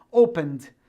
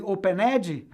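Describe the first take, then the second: First: "Opened" in two syllables ending -nd; silent E. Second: "opened" wrongly said o-pe-NED-jee; mistaken voiced E. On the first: Teacher showing the right way, "Opened" with silent E. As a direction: drop the E, finish "Opened" on the D. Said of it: "Porque eu não pronuncio". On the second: Teacher mimicking the mistake, "opened" with E voiced. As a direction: sound the E in "opened" with an added final vowel. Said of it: "Nada de falar opened". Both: Shown as a demonstration.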